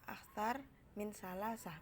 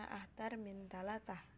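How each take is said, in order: First: The number word uses th-like S sounds. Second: The number word uses T sounds instead. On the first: "huruf tha" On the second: "melafalkan huruf sa itu sebagai huruf ta"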